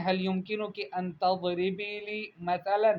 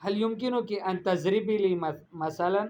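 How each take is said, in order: First: Slow, careful "تضربی" as tadribi, heavy d; correct ض and ث. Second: "تضربی" said tazribi with z, "مثلا" with s; mispronounced ض and ث. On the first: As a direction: model "تضربی" with emphatic d and "مثلا" with th. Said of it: "قولی، آپ کہیں". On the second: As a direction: say "تضربی" wrongly with a z for ض. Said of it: "مثال نہیں ہوتا". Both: Shown as a demonstration.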